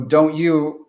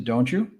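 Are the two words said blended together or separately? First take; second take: separately; blended. First: The t and y sounds stay separate. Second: The t and y merge into one sound.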